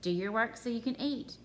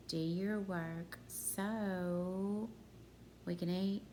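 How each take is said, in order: First: Said in the usual way. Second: "so" hugely drawn out, then a pause; stress on SO. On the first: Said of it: "I say this all the time". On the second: Shown as a demonstration. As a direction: stretch "so" long before finishing the sentence. Isolates "so" for the grammar question.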